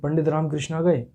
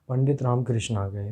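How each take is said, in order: First: It is said as a question. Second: It is said as a plain statement.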